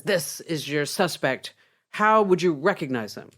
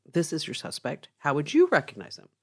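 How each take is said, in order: First: Slow first sentence, then a louder question; mildly testy policeman, weighting each word. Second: Said in the usual way. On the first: Acted. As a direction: ask it with patience running out. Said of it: "in a very testy voice".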